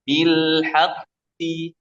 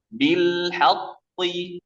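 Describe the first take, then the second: First: Slow bil haqqi with proper light thickness; correct demo. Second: Slow bil haqqi said too heavy; imitating wrong reading. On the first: Shown as a demonstration. Teacher showing the correct recitation. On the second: Teacher imitating some students' wrong recitation. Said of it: "membaca seperti ini".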